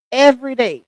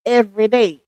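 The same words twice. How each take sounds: The two takes are said the same way.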